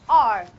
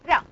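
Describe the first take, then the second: First: The r is made with the tongue curled back. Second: The r has the tongue tip touching the ridge.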